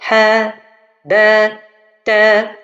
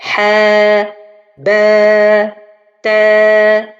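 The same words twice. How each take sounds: First: Each vowel is cut short. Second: Each vowel is held long. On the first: The speaker calls it wrong. "à peine je prolonge. Ça c'est faux" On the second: The speaker calls it right. "Au lieu de dire"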